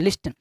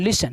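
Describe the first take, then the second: First: The t sound is pronounced. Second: The t sound is silent. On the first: The speaker calls it wrong. "लिस्टन गलत है" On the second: The speaker calls it right. "टी आपका silent"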